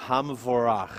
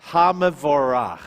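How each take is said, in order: First: Said in the usual way. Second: Hamavorach said firmly and louder, ha-ma-vo-rach; louder model reading. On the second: Shown as a demonstration. Teacher models Hamavorach for the class, loud and clear. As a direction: sound out Hamavorach clearly with force. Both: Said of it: "Baruch et Adonai".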